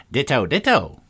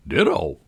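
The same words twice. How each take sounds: First: Raised, higher cry of ditto; mildly shouted echo. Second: Said in the usual way. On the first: A narrator's reading. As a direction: call it out twice, pitched up. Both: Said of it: "He shouted this so loud".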